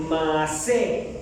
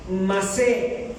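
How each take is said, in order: First: "masé" repetido, acento en la última E; pronunciación hebrea. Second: "masé" con acento en la última E, dicho claro; pronunciación hebrea. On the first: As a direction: vuelve a decir "masé" marcando la "sé" final. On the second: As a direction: pronuncia "masé" cargando la sílaba final "sé". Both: Shown as a demonstration. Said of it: "con doble E y acento en la última E". ("masé" agudo, la E final acentuada)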